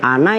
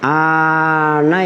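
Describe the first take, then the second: First: The vowel is said short. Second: The vowel is said long. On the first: It means nearness. The speaker calls it right. "Pendek nih" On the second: It means distance. The speaker calls it wrong. "Yang kedua boleh dibaca panjang"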